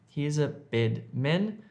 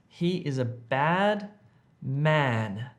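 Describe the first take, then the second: First: The vowels in bad and man sound like eh. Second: The vowels in bad and man sound like ah. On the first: The speaker calls it wrong. "don't say he is a bed men" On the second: The speaker calls it right. "You want to make an A sound"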